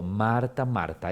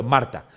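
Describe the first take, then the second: First: Primer "Marta" sube, segundo "Marta" baja más grave; "Marta, Marta" con vehemencia. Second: Said in the usual way. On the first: Shown as a demonstration. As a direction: repetir "Marta, Marta" con pasión y cuidado. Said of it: "con vehemencia, con cuidado, con pasión". (Jesús llamando "Marta, Marta" con cariño apasionado) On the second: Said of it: "le puedo haber dicho solo Marta".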